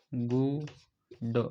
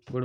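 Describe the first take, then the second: First: गुड very slowly, long goo then a separate d; sounded out. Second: Said in the usual way. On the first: Shown as a demonstration. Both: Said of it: "गुड़ हम बोलते हैं".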